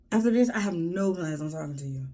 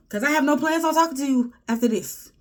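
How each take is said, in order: First: Said in the usual way. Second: Much higher and louder, pushing on talking; loud declaration. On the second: Acted. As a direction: belt it out like a final ruling. Vowing not to talk to him.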